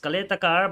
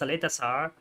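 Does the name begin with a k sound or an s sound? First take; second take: k sound; s sound. First: The name begins with a k sound. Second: The name begins with an s sound. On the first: This is how the commentator habitually says it. The speaker calls it wrong. "I keep pronouncing it as Kaletakar" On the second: This is how other people say it should be. The speaker calls it right. "but then the people say it's Saletasar"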